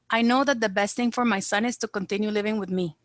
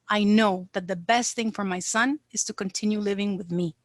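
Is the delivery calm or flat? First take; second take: flat; calm. First: It is said flatly, without attention to tone. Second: It is said calmly, with careful tone and emphasis. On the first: The speaker calls it wrong. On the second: The speaker calls it right.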